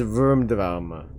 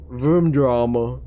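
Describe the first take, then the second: First: Said in the usual way. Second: Slow, deliberate Filipino-accented "Vroom drama". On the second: Shown as a demonstration. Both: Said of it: "my Filipino accent is showing hard".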